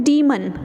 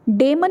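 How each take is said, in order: First: डीमन with a long ee, dee-mun; डीमन said as dee-mun, not deh-mun; correct pronunciation. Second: डेमन with a short e, deh-mun; डेमन as deh-mun, the wrong way; wrong pronunciation. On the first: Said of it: "इसकी actual pronunciation क्या है". (डीमन सही उच्चारण, लंबी ई के साथ) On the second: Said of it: "डेमन नहीं होगा". (डेमन गलत उच्चारण, छोटी ए) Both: Shown as a demonstration.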